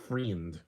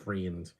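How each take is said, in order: The two takes are said the same way.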